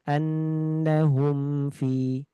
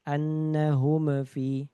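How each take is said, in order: First: The m is clear, moderate, and flows on. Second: The m bounces with a small echo. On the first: The speaker calls it right. "Harusnya dibaca dengan pertengahan" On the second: The speaker calls it wrong. "memantul tadi nggak boleh juga"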